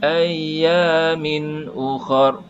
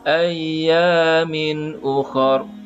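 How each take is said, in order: The two takes are said the same way.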